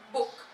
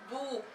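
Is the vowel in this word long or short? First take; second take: short; long. First: The vowel sound is short and clipped. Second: The vowel sound is long and drawn out. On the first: The speaker calls it right. "It's it's short" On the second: The speaker calls it wrong. "You do not say book"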